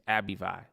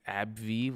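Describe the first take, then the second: First: The name is said with three syllables. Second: The name is said with two short syllables. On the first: The speaker calls it right. "It's Abivai" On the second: The speaker calls it wrong. "what the hell is an Abvi? That sounds stupid"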